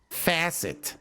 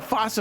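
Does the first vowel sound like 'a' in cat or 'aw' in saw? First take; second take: a; aw. First: The first vowel sounds like 'a' in cat. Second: The first vowel sounds like 'aw' in saw. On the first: The speaker calls it right. "I gotta stop myself" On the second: The speaker calls it wrong. "I always want to pronounce that faucet"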